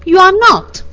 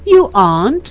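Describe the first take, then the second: First: The negation is said with strong emphasis. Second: The negation is said plainly, without extra emphasis.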